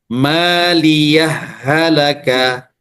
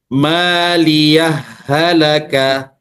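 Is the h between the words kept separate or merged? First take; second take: merged; merged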